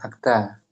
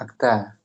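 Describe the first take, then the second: First: The vowel after t is a. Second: The same.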